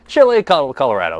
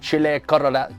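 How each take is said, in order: First: The name is said with an English accent. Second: The name is said with a Spanish accent. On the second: "more like the Spanish way"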